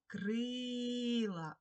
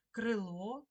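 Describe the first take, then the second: First: Крила with a very long held И; stressed, stretched И. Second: Крило with stressed last vowel, rising; stress on final О. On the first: Teacher giving the check word, крила stressed on long И. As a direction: hold the И in крила, loud and clear. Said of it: "И, пишемо И". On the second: Teacher posing a spelling example, Крило stressed on final О. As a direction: lean on the О ending of Крило. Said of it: "наголосна О". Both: Shown as a demonstration.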